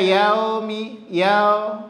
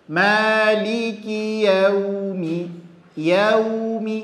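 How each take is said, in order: First: "yaumi" with the glide slackened to o; salah, u jadi o. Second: "Yaumi" slow, gliding to a clear u; waw berbunyi u. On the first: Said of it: "Nggak boleh dibaca". ("yaumi" salah dibaca yaomi) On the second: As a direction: pucker the lips for ya-u-mi in "Yaumi". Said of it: "vokalnya adalah huruf u". ("Yaumi" dengan bunyi u, bibir monyong) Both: Shown as a demonstration.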